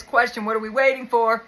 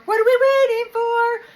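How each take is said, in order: First: Said in the usual way. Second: High, loud, slow squeaky echo of the question; much higher and louder, drawn-out mock whine; mock squeal. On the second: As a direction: squeal it like an impatient kid. Repeats viewer's question in mock voice.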